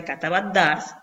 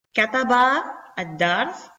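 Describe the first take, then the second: First: "katabat dars" joined, short A straight into the D; linked pronunciation. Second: "kataba ad dars" slowly, long final A, then a break; separated full form. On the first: Teacher showing how it is pronounced, short and linked. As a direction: run "katabat dars" together without a long vowel. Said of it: "que se pronuncia". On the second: Teacher spelling out the written form, slow and separated. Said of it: "que se pronuncia katabat dars". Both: Shown as a demonstration.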